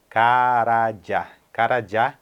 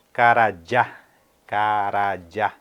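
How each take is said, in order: Both takes have the same delivery.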